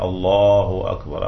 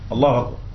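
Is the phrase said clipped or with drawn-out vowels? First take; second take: drawn-out; clipped. First: The vowels are lengthened slightly and unhurried. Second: The phrase is rushed with clipped short vowels. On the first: The speaker calls it right. "المد الطبيعي ... أقل شيء حركتين" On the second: The speaker calls it wrong. "في ناس يخطف خط خط"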